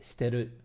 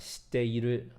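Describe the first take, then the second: First: One syllable is dropped, shortening it. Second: Every syllable is said fully. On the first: "sometimes they'll simplify their speech" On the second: "instead of saying"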